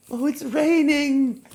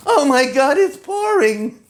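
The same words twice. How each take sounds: First: High, slow, loving sigh of joy; rapturous oh it's raining; delighted. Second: High, loud, slow wail of dismay; horrified the gown will be ruined; shrieking oh my God it's pouring. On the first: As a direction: savor the rain like a treat. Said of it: "what about if you love the rain". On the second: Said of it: "go somewhere in an evening gown". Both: Shown as a demonstration.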